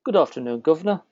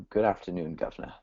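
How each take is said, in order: First: Playful UK accent, lifting on "governor"; attempted British accent. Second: Mock British "governor" greeting; British accent. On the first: Host copies guest's UK greeting, imitated British accent. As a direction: copy a mock British greeting. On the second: Guest coaches host on a UK greeting, mock British accent. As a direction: show a playful, understated UK accent. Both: Shown as a demonstration. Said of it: "try and talk the U K".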